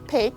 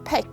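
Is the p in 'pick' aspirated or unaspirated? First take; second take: unaspirated; aspirated. First: The p is said without a puff of air. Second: The p is said with a puff of air. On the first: "you pronounce it pick" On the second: "native speakers pronounce it pick"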